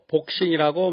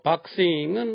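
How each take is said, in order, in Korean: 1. 첫 모음은 둥글게 오므린 'o' 소리입니다. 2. 첫 모음은 입을 크게 벌린 'a' 소리입니다. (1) "남들 다 그러니까 그냥 복서, 복싱 따라합니다" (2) "자연스럽고 소통 잘 되는 영어 발음"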